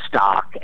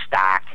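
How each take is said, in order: First: The vowel is an open 'ah' sound. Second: The vowel is fronted like 'a' in 'cat'. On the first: This is how one part of the country says it. "in one part of the country uh, might say" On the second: This is how people near the Great Lakes say it. "near the Great Lakes they might say"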